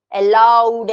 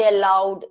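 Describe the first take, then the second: First: Loud, stressed demo of allowed; teacher shows how allowed is said with force; said aloud. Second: Said in the usual way. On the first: Shown as a demonstration. Teacher demonstrating stress to students, loud. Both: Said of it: "कुछ शब्दों को जोर से बोला जाता है".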